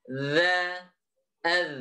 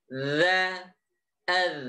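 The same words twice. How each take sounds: The two takes are said the same way.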